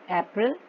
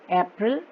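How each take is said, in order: Both takes have the same delivery.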